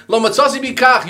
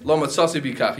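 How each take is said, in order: First: "lo matzasi b'kach" said higher and louder, each word pressed; emphatic repeat. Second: Said in the usual way. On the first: Shown as a demonstration. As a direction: drive home "lo matzasi b'kach" with a raised, forceful voice.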